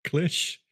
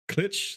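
First: CLICH as one syllable, "klish", higher; mispronounced cleesh. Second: CLICH as one syllable, "klitch", higher; mispronounced clitch. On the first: Host trying out the wrong word, klish. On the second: Host finding it sounds dirty, klitch. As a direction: say CLICH to rhyme with itch. Trying out the second wrong pronunciation. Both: Shown as a demonstration.

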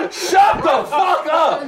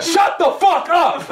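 First: Shouted. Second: Slow laughing protest. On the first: Yelling back at his friend, slow mock shout. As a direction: yell it out, drawn out. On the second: Laughing at his friend's claim, slow laughing shut up. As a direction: laugh it out while telling him off. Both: Real, not acted.

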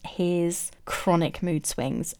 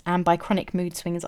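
First: Chronic said slow and drawn out, falling; slow heavy stress on chronic. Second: Said in the usual way. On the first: Shown as a demonstration. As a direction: lean on chronic, slowly.

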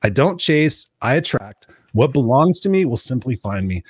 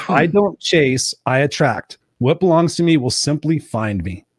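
First: Said in the usual way. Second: Slow, deliberate affirmation read. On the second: Retold or imitated. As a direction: say it like a mantra, slowly. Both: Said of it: "She said".

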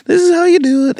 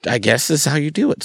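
First: High, loud put-on mentor voice; mock a kindly prophet giving instruction, pitched way up; nice prophet. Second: Said in the usual way. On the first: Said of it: "nice prophet somewhere who was like". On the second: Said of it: "It was just like".

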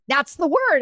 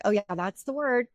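First: High, emphatic retold insistence; insistent. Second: Understated, easy retold agreement; recognizing. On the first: Mom insisting on her word through the medium, insistent. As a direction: come back firmly with pitch raised. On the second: Daughter recognizing her mom's word, mildly agreeing. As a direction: agree lightly in an everyday voice.

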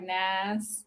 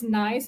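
First: "Nas" said low and soft with a flat Southern "ah" vowel; Southern "Nas", the vowel opened to "ah"; Southern accent. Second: Said in the usual way. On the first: Shown as a demonstration. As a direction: say "Nas" as a Southern drawled "nice". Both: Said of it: "it's just not just nice".

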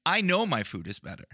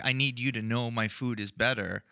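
First: "I know" lifted higher, quicker, assured; stress on KNOW. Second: Said in the usual way. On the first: Acted. Host rejecting any insecurity about his food, stress on "I know". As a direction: lean on "I know", then let it fall. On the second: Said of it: "not because I'm insecure thinking".

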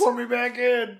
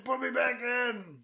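First: High, loud pleading. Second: Slow pleading. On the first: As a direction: beg to be sent back. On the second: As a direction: beg again, slowly, defeated. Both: Retold or imitated. Begging as the time traveller.

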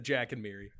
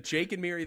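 First: "Jack" stressed at an everyday pitch. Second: "Jake" punched higher and louder; stress on Jake. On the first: Admitting the second name said, "Jack" stressed. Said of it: "then I said". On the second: Insisting on the first name said, "Jake" punched. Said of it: "I said". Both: Shown as a demonstration.

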